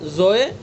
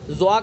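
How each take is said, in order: First: The vowel glides from 'oh' to 'eh'. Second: The vowel glides from 'oo' to 'ah'. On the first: "ये भी गलत" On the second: "ज़ुआ का तलफ़ुज़ भी गलत"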